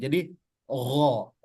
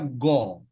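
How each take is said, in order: First: The consonant is a throaty, gargle-like friction sound. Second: The consonant is a plain hard g stop. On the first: The speaker calls it right. "jadi terdengar seperti ngorok" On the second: The speaker calls it wrong. "kalau tidak dia dibasahkan atau dingorokkan, maka nanti dikhawatirkan ada orang yang membaca go"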